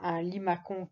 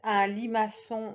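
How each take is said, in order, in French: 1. Le c se prononce comme un k dur. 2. Le c se prononce comme un s doux. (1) "si je mets un C, ça fera un limacon qui ne veut rien dire" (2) "c'est comme garçon"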